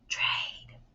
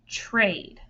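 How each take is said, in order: First: It is whispered without full voice. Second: It is said in an ordinary speaking voice.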